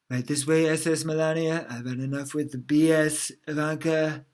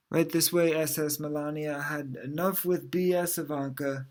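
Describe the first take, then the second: First: Louder, more performed delivery; put-on retake. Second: Said in the usual way. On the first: Shown as a demonstration. Retrying the joke as a father, louder put-on delivery. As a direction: sell it as a character line. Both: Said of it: "Maybe I should do it with the".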